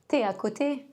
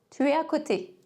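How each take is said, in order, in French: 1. Le mot 'tu' se raccourcit en t'. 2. Le mot 'tu' se dit en entier.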